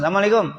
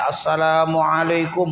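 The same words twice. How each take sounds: First: The greeting is pronounced loosely and plainly. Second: The greeting is pronounced fully and precisely. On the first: The speaker says the greeting without much care. "gitu doang" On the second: The speaker is very fluent in the greeting. "salamnya lebih fasih"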